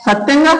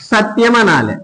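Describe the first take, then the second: First: సత్యంగా said higher, the rural way; a touch of village speech on సత్యంగా; village pronunciation. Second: సత్యం said with a clear "tya" cluster; the standard సత్యం with "t" and "y" together; correct pronunciation. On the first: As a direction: mimic how villagers say సత్యంగా. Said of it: "కానీ ఏమంటున్నారు?". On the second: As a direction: say సత్యం carefully, the proper way. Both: Shown as a demonstration.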